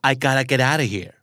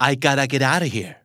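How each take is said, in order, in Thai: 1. "Have got to" ออกเสียงย่อเป็น "gotta" ครับ 2. "Have got to" ออกเสียงย่อเป็น "gotta" ครับ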